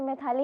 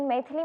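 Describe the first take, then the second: First: The middle vowel is a long 'aa'. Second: The middle vowel is a short 'i'. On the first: This is how most people say the name. The speaker calls it wrong. "सब लोग मुझे मैथाली ही pronounce करते हैं" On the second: This is the name's actual form. The speaker calls it right. "लेकिन मैथिली मेरा नाम है"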